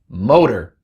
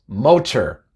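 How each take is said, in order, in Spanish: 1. La t es una vibrante suave, como la d. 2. La t es una t clara y nítida. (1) "es motor" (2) "No decimos motor"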